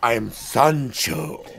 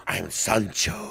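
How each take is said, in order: First: Put-on slow, low seductive accent; sexy accented voice. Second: Put-on low, slow, seductive accented voice; sexy accented voice. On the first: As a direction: drawl the name like a suave charmer. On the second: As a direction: purr the name like a suave Latin lover. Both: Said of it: "amazingly sexy voice with the accent".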